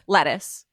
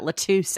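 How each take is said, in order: First: The word is pronounced in the ordinary way. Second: The word is pronounced in an odd, put-on way.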